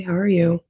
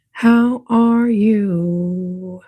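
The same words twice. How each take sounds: First: Said in the usual way. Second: Slow, stretched "How are you?"; very slow drawn-out greeting. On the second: Pretend. Streamer greeting viewers in chat with a slow stretched drawl. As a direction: draw every word out long.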